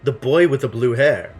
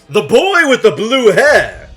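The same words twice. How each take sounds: First: It is said in the speaker's ordinary voice. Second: It is said in a put-on character voice. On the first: The speaker calls it wrong. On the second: The speaker calls it right.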